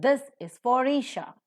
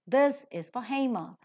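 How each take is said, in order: First: For said with r into Isha; linking r. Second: For said without r before Hema; no linking r. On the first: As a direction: link the r of for into Isha. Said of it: "Ra is seen". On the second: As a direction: drop the r in for. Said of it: "ra is not present". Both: Shown as a demonstration.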